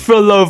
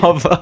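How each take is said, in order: First: The name begins with the sound 'fro'. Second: The name begins with the sound 'par'. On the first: The speaker calls it right. "It's Frolova" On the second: The speaker calls it wrong. "you're pronouncing Frolova's name wrong"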